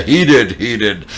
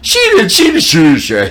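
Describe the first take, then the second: First: Dropped-down, hasty self-correction; women posing as men. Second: High, loud mock crowd of women; women tattling. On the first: Retold or imitated. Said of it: "pretending to be men". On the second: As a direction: squeal the accusation in quick repeats. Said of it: "and she goes".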